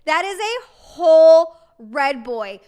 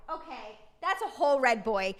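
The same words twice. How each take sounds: First: Slow and much louder, leaning on whole; real delight, slow and loud; emphatic repeat. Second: Said in the usual way. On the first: Real, not acted.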